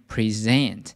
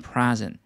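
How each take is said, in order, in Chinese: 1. 重音在第二个音节。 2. 重音在第一个音节。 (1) "它的重音呢会在第二个音节，念present" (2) "当动词的时候呢，它不念present"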